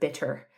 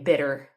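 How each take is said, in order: First: The middle consonant is a crisp t sound. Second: The middle consonant sounds like a soft d. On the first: The speaker calls it right. "instead of bitter" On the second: The speaker calls it wrong. "a lot of American accents turn things like double T's into double D's"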